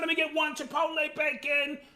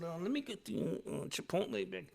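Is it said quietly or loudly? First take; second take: loudly; quietly. First: It is said loudly and openly. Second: It is said quietly and calmly.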